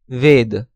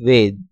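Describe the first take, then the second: First: It is said the Sanskrit way. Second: It is said the Hindi way. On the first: "Sanskrit pronunciation" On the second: "Hindi pronunciation"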